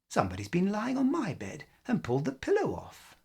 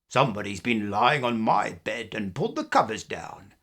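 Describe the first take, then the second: First: A middle-sized, medium-pitched voice is used. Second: A deep, growling big voice is used.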